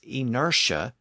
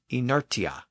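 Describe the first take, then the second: First: A sh sound is used in the middle. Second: A t sound is used in the middle. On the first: The softened modern pronunciation. The speaker calls it right. "why we pronounce I N E R T I A as" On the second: The unsoftened pronunciation. The speaker calls it wrong. "and not"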